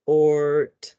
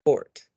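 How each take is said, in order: First: "Ort" stretched, with the final t set apart; sounds before blending. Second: Said in the usual way. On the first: Shown as a demonstration. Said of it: "we wanna say the sounds first". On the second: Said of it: "and then we'll blend it".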